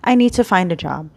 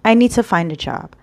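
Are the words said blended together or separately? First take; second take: blended; blended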